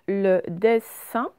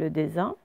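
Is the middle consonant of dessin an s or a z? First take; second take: s; z. First: The middle consonant is a hissing s sound. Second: The middle consonant is a buzzing z sound. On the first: This is the real word with two S. The speaker calls it right. "ce sont les deux S" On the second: This is how it would read with one S. The speaker calls it wrong. "Si on ne les mettait pas, ça ferait le dessin"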